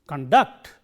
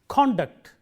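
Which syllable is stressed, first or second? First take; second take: second; first. First: The stress is on the second syllable. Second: The stress is on the first syllable. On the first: It is used as a verb. "Stress on the second syllable, used as a verb" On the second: It is used as a noun. "Stress on the first syllable, used as a noun"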